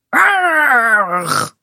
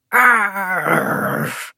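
First: Higher, long pirate "Arr"; pirate cry. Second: Long rolled pirate "Arr"; pirate growl. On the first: Kaat draws her dagger too, crying out as pirate. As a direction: call out a high growling "Arr", falling. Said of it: "roept Kaat ook". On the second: Bink draws his sword as a pirate, growling. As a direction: draw out a growling "Arr" at usual pitch. Two children play at pirates. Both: Acted.

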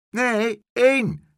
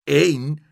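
First: Very high, loud "één"; loud correction. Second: Loud, incredulous shout of "Eén"; shouted question. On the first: Horse's head correcting the boy, loudly. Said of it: "zei de paardenkop". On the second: Boy disbelieving the horse, shouting. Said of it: "schreeuwde Pluk". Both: A narrator's reading.

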